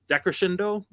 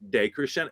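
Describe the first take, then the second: First: "decrescendo" opened as DECK-ruh-shendo, high questioning rise; mispronounced decrescendo. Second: "decrescendo" opened as DAY-creh-shen-do, clear long DAY; correct Italian decrescendo. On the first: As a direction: say "decrescendo" wrongly, first syllable like DECK. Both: Shown as a demonstration. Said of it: "I mispronounce words".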